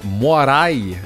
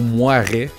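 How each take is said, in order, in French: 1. Le nom est prononcé soigneusement, comme il est écrit. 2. Le nom est prononcé négligemment, à la française.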